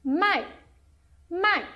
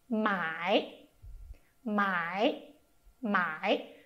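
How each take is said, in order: First: "Mai" said high and falling sharply, Mandarin fourth tone. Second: "mai" said low and dipping, Mandarin third tone. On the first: Teacher showing listeners the falling fourth tone on "Mai". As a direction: start "Mai" high and drop it hard. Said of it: "esse marcador é quarto tom em mandarim". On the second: Teacher showing listeners the low third tone on "mai". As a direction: drop "mai" low into a dip, then let it rise slightly. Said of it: "a gente chama terceiro tom em mandarim". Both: Shown as a demonstration.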